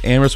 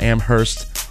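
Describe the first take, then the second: First: The 'h' sound is left out. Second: The 'h' sound is pronounced. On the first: The speaker calls it right. "Amherst with a silent H" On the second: The speaker calls it wrong. "not Amherst"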